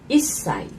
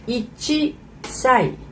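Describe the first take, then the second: First: The number is clipped to i with a stop. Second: The number is said in full as ichi. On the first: The speaker calls it right. "but the actual sound is uh, いっ歳" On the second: The speaker calls it wrong. "one year old is uh, いち歳"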